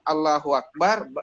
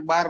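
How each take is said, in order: First: The whole phrase is said in full. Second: Only a loud clipped last syllable is said. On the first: The phrase is recited properly. "yang ketiga kali yang ya, Allahu Akbar" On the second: The phrase is rushed and disturbs other worshippers. "dengan mengeraskan suaranya"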